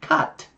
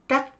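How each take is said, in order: First: The vowel is the English short u. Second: The vowel is like the Vietnamese á. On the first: The speaker calls it right. "mà là cut" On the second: The speaker calls it wrong. "Nó không phải là cắt"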